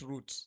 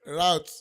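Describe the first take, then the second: First: It is said the British way. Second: It is said the American way.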